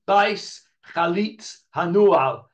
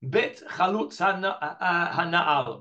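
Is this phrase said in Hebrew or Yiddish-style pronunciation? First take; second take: Yiddish; Hebrew. First: It is said in a Yiddish-style pronunciation. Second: It is said in a standard Hebrew pronunciation.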